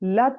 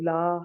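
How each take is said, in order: First: The vowel in la is kept short. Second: The vowel in la is held long. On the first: It marks emphasis. The speaker calls it right. "इस तरह से" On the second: It becomes a negation. The speaker calls it wrong. "जरा हरकत लंबी कर दें तो ला"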